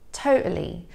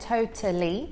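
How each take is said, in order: First: The middle T is a glottal stop. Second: The middle T is clearly pronounced as T. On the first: "with a glottal T, so that's where the flow of air is stopped and then released" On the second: "I'm pronouncing it with a true T, so you can hear that T there"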